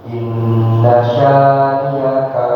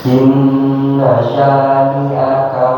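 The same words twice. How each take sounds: The two takes are said the same way.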